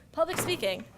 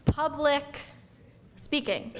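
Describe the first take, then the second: First: Said in the usual way. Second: Slow, theatrical "Public ... speaking"; dramatic pause. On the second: Shown as a demonstration. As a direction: split "Public speaking" with a long suspenseful gap.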